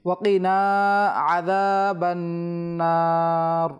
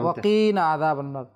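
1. 'na' অংশটি টানা হয়, 'qi' নয়। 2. 'qi' অংশটি টানা হয়, 'na' নয়। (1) "নুন টান হয় কিন্তু আর কফ টান হয় না" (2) "অনেকে কফকে টান দেয় নুনকে টান দেয় না, ... এটা সম্পূর্ণ ভুল"

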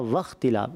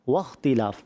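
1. پہلی آواز میں دانت ہونٹوں پر لگتے ہیں۔ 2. پہلی آواز گول ہونٹوں سے ادا ہوتی ہے۔ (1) "آپ نے پڑھا واختلاف, آپ کے دانت لگے ہونٹوں پر" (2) "واؤ جو ہے نا اس کو جو پڑھتے ہیں ہونٹ گول کر کے پڑھتے ہیں"

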